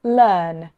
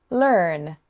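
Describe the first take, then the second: First: Said in the usual way. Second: Rhotic "learn" with the er sounded; a bit North American, "learn" with a clear R; rhotic accent. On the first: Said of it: "the first was your own accent". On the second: Shown as a demonstration. Teacher says "learn" for learners to hear the difference, rhotic accent. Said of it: "the second was with a rhotic accent".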